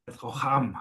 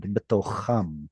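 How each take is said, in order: First: Student echoes בתוכם, trying the rough kh; student repeat. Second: בתוכם with a rough throaty kh, betokham; gravelly kh in בתוכם. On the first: Student copies the tutor's בתוכם. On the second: Tutor models the word for the student, rough throaty kh. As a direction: rasp the kh sound in בתוכם. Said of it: "So it has that gravelly sound". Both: Shown as a demonstration.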